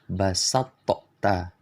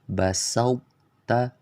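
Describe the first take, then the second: First: The t has an audible bouncing release. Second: The t keeps a trace of emphasis. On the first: The speaker calls it wrong. "mengkolkolahkan huruf to. Cara baca yang salah" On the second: The speaker calls it right. "Jadi yang benar"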